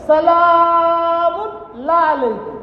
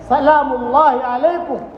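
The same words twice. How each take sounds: First: 'سلام اللہ علیکم' drawn out very slowly, sing-song, syllables slurred into /əlamʊ nl aleku/; 'سلام اللہ علیکم' stretched and slurred, sing-song, like a tongue that cannot form it; stammered greeting. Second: Said in the usual way. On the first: Shown as a demonstration. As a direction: mimic a stammering old woman garbling 'سلام اللہ علیکم'. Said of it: "کہہ نہیں سکتی، تو کہتی ہے". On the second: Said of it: "کہنا یہ چاہتی ہے".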